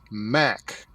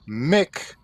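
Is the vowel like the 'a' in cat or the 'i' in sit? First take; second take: a in cat; i in sit. First: The vowel sounds like the 'a' in cat. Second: The vowel sounds like the 'i' in sit. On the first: The speaker calls it right. "They're pronounced Mac" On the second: The speaker calls it wrong. "not Mick for M C"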